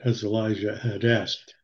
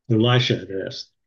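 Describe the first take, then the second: First: "Elijah" said with a soft zh sound, ee-LIE-zhuh, slipped in by mistake; "Elijah" read aloud as ih-LIE-zhuh before the self-correction; misread name. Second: "Elisha" said with a clear sh sound, ih-LIE-shuh; "Elisha" corrected to ih-LIE-shuh with a firm sh; self-correction. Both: Real, not acted.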